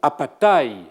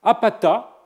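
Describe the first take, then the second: First: It ends with a pronounced i sound. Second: It ends on a long a, with no i. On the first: It is the noun meaning deceit. The speaker calls it wrong. "et non « apatai », tromperie" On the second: It is the verb meaning he deceives. The speaker calls it right. "qu'il faut lire « apata », il trompe"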